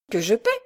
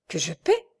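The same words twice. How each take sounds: First: Repeated incredulous question, rising end; stunned echo. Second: Dazed disbelief, rising at the end; stunned question. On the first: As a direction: repeat it in disbelief. (répétition abasourdie, incrédule) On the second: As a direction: echo it as if dumbfounded. (question abasourdie, incrédule) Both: A narrator's reading. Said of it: "dit Michel abasourdi".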